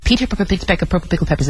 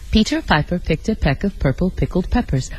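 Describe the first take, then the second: First: It is said extremely fast. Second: It is said at a moderate speed.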